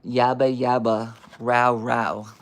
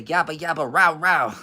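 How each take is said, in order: First: Slow, loud, level yabba-yabba bark; deadpan barking. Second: Loud, higher yabba-yabba bark; dog barking imitation. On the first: Acted. Reader questioning the book's description of barking, slow deadpan bark. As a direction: spell out the bark slowly and loudly. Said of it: "how is that a description of barking". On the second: Reader voicing a growling dog, loud imitated barking. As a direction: bark it out loud in spoken syllables.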